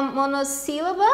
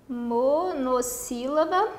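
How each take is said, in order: First: Said in the usual way. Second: "monossílaba" slowly spelt out in syllables. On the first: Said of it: "é uma sílaba única". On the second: Shown as a demonstration. Teacher writing out the term for students, slow syllabic "monossílaba". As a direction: dictate "monossílaba" at half speed, piece by piece. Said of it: "É uma monossílaba, palavra de uma sílaba só".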